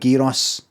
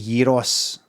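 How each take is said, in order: First: It is said with plain English pronunciation. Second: It is said with native-style foreign pronunciation. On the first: The speaker sounds ordinary. "I'll go with gyros" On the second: The speaker seems to show off. "I don't want to go as far as to say gyros"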